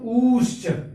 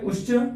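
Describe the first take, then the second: First: The first vowel is drawn out longest. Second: The first vowel is held very briefly. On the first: "और उससे और थोड़ा सा समय लगाएंगे" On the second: "एक में कम काल लगता है"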